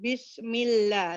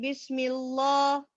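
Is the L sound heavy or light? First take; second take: light; heavy. First: The L is light, said with spread lips. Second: The L is heavy and dark. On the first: The speaker calls it right. "smile. Bismillah. Light ang lam" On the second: The speaker calls it wrong. "ang common mistake... heavy ang lam"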